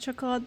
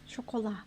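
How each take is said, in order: First: It is said with a plain English accent. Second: It is said with a French accent.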